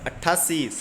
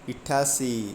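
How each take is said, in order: First: The word begins with an 'a' vowel. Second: The word begins with an 'i' vowel. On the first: The speaker calls it right. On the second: The speaker calls it wrong.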